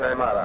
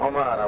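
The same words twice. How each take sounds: First: The first vowel is i. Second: The first vowel is u. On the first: The speaker calls it wrong. "وليس" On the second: The speaker calls it right. "أكثرهم بالضم"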